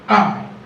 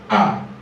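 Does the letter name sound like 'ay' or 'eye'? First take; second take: eye; eye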